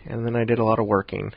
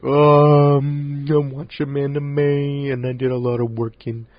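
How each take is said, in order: First: Said in the usual way. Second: Loud, drawn-out put-on voice; bad Brent impression. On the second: Host mimicking his absent co-host's monthly wrap-up, bad exaggerated impression. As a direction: stretch the words out in a badly faked imitation. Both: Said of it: "I had a really bad Brent impression".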